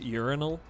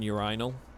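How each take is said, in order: First: It is said with an American pronunciation. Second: It is said with a British pronunciation. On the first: "in the U S, they pronounce it urinal" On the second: "rather than urinal"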